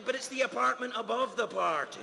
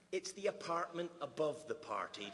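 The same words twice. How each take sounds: First: Apartment punched, whole line louder and higher; stress on apartment. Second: Said in the usual way. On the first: Shown as a demonstration. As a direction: lean hard on the word apartment. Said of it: "Do you know what I'm saying?".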